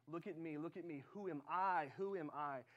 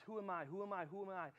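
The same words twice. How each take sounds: First: "look at me" steady, then "I" hit harder in "Who am I"; God's answer. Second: Quick, repeated self-questioning as Moses; doubting Moses. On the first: God redirects Moses to Himself, firmly stressing "I". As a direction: turn the question back with weight on "I". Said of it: "And God says". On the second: Moses questions his calling, doubting himself over and over. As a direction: imitate insistent self-doubt, evenly repeated. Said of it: "Moses says". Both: Retold or imitated.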